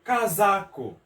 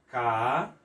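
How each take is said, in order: First: Said in the usual way. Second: CA... ZA... CO, each syllable alone. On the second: Shown as a demonstration. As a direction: split "Ca-za-co" with long pauses. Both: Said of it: "como vai ficar?".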